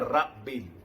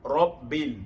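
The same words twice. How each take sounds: First: The r is said thin and light. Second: The r is said thick and heavy. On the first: The speaker calls it wrong. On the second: The speaker calls it right. "ra dibaca tebal"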